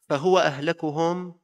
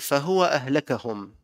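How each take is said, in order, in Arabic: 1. يتبع صوت الكاف حركة 'u'. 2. يتبع صوت الكاف حركة 'a'. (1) "بضم الكاف" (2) "وبفتح الكاف"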